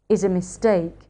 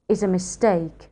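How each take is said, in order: The two takes are said the same way.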